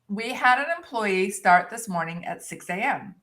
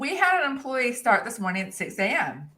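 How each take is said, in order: First: It is read slowly. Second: It is read fast.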